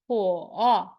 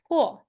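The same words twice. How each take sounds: First: It is said with the third tone. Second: It is said with the fourth tone. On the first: "Third tone" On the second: "Last tone"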